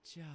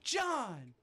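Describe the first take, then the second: First: The name is said very softly. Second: The name is said at normal loudness.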